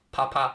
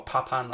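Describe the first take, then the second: First: "Papin" said as pa-pa, open ending; Papin without final n. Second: "Papin" said as pa-pan, n sounded; Papin with final n. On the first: Streamer unsure of the French name, saying "Papin" as pa-pa. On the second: Streamer offering another guess, "Papin" ending in a spoken n. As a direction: close "Papin" on a clear n. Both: Shown as a demonstration. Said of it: "I'm not sure how you pronounce it".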